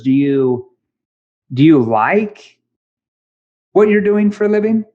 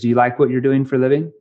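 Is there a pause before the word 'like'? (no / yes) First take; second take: yes; no. First: There is a pause before the word like. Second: There is no pause before the word like. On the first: The listener is given space to think deeper. The speaker calls it right. "that pause helps the person on the other end think deeper about the question I'm asking" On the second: The question invites a knee-jerk answer. The speaker calls it wrong. "if I just say"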